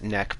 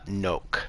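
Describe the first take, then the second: First: The vowel is short, like in 'neck'. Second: The vowel is long, like in 'noke'. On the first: This is how it is pronounced today. "we pronounce it neck" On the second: This is how it was probably pronounced in ancient times. "it probably would have been pronounced at this time something like uh, noke"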